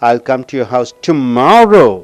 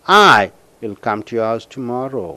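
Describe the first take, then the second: First: The word tomorrow is stressed. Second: The word I is stressed. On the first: The visit will happen tomorrow, not another day. "நாளைக்கு அழுத்தம் கொடுக்கும்போது" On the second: The speaker will come alone. "When you stress for I, see here"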